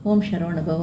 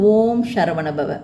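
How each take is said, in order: First: The phrase is murmured softly under the breath. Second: The phrase is said out loud, clearly. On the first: "முணுமுணுப்பா" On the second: "சப்தமா"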